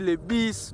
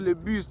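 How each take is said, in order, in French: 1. La voyelle est un son i non arrondi. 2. La voyelle est un son u français arrondi. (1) "tu dis le bis" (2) "au lieu de dire le bus"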